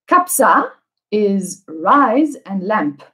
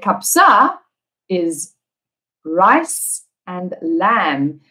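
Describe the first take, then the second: First: The last word ends with a p sound. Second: The last word ends with a b sound. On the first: The speaker calls it wrong. "with the incorrect pronunciation" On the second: The speaker calls it right. "We need to say"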